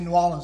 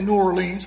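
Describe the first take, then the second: First: It is said the local New Orleans way. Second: It is said the speaker's Virginia way.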